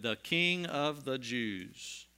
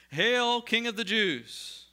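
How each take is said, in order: First: Slow, deliberate reading of "King"; inscription read slowly. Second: High, loud, slow mocking hail; mock salute. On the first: Acted. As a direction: read the sign word by word. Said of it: "the inscription of the charge against him read". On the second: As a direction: jeer like soldiers saluting in scorn. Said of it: "they began to salute him".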